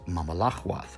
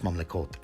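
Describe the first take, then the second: First: A vowel splits the m and l sounds. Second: The m and l run together without a vowel.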